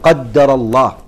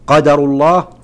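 First: The d sound is doubled and held longer. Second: The d sound is short and single. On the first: God has decreed it. "والرواية الثانية: يعني هذا تقدير الله" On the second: This is the decree of God. "يعني هذا قدر الله"

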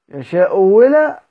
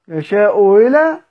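First: The second hamza is replaced by a w sound. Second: The second hamza is softened, not fully pronounced. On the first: "على النوع الثاني اللي هو الابدال" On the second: "على النوع الاول اللي هو الايه التسهيل"

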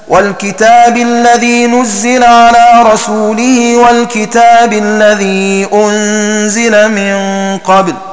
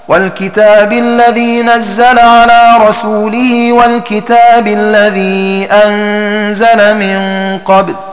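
First: The verbs are read with u-vowels: nuzzila, unzila. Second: The verbs are read with a-vowels: nazzala, anzala. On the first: The verbs are passive: it was sent down. "بضم النون وكسر الزاي في نزل وبضم الهمزة وكسر الزاي في أنزل هكذا" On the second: The verbs are active: God sent it down. "بفتح ضم النون وفتح كسر الزاي في نزل وبفتح ضم الهمزة وفتح كسر الزاي في أنزل"

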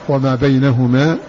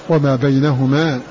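The two takes are said the same way.

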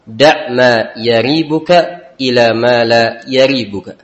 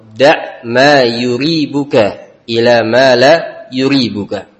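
First: The verb begins with a 'ya' sound. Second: The verb begins with a 'yu' sound. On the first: "Boleh dibaca dengan fathah" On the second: "juga boleh dibaca dengan dhammah"

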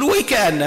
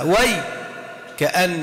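First: The word is said whole without a break. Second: The word is split with a break inside. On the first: "نقول ويكأن ما نقسمهاش" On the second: "من القراء من قسمها"

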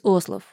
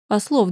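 First: The stress is on the first syllable. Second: The stress is on the second syllable. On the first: "Делает ударение на первую «о»" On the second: "Разве ударение не на вторую «о»?"

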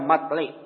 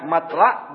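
First: The vowel after the l is i. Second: The vowel after the l is a. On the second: "Fathil lam"

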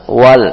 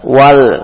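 Both takes have the same delivery.

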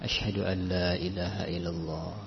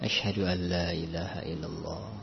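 No difference in how they are said.

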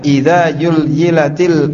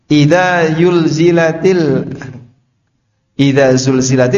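First: The second word begins with a y sound. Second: The second word begins with a z sound. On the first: The speaker calls it wrong. "za dibaca ya" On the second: The speaker calls it right. "Orang Jawa itu tidak bisa membedakan antara za dengan ya"

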